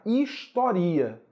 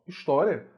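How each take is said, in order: First: "historia" slow, stressed on RI. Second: "história" stressed on TÓ. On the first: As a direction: say "historia" slowly as his-to-RI-a. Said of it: "se eu retirar o acento". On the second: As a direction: say "história" with the stress on TÓ, ending on unstressed ria. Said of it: "existe com acento gráfico". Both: Shown as a demonstration.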